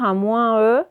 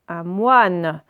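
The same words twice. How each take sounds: First: "un moins E" as mwɛ̃ plus a sounded E; wrong reading. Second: "un moine" as mwan, no nasal; correct reading. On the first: Teacher to pupils showing the wrong reading: split nasal. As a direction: read "moins E" with the nasal and a separate E. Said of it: "on va pas dire". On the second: Teacher to pupils showing the right reading: plain mwan. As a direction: say "moine" as one syllable, mwan. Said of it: "on va casser là". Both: Shown as a demonstration.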